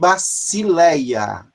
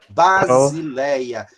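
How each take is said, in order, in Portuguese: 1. A consoante do meio soa como s. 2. A consoante do meio soa como z. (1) "Poderia ser lido também" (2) "o sigma medial tem som de Z como em português"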